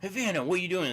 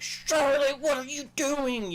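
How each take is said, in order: First: Said in the usual way. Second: Much higher, loud, hugely exaggerated call to a deaf dog; big cartoonish sing-song call, pitched way up; animated calling out. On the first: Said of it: "So it's not like". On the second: Shown as a demonstration. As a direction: overdo it so the deaf dog looks at you. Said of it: "you gotta, like, really get animated".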